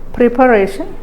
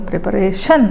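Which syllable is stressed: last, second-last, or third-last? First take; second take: third-last; last. First: The stress is on the third-last syllable. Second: The stress is on the last syllable. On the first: "If you give stress on the third syllable or anti-penultimate syllable" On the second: "If you give stress on the last syllable"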